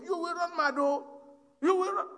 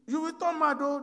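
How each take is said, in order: First: Higher and louder, rising as it goes; loud warning. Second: Higher and louder, warning him off; raised warning. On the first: Coffin owner warns the brothers not to read it, urgent raised warning. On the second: Brother warns Shola against opening the coffin, raised warning. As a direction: cry out a warning that he'll go mad. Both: Retold or imitated.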